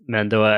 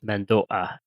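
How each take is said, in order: First: The final vowel follows smoothly without a catch. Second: A glottal catch comes before the final vowel. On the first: This is how most people casually say it. "people gloss over that that bait in there" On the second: The speech is clear and precise. "with the little catch in the throat before the A"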